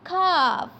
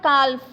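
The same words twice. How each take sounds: First: The L sound is left silent in the word. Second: The L sound is pronounced in the word. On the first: The speaker calls it right. "L will be silent here" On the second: The speaker calls it wrong. "It's not calf"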